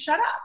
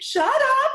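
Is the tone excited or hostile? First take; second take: hostile; excited. First: It sounds hostile and dismissive. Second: It sounds excited and amazed.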